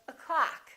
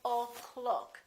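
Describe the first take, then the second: First: The first vowel is a reduced uh sound. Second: The first vowel is a full O sound. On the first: The speaker calls it right. "this one disappears and becomes this uh sound" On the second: The speaker calls it wrong. "We don't say o'clock"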